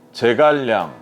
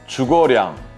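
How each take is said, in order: First: The name is said with Korean pronunciation. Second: The name is said with Chinese pronunciation.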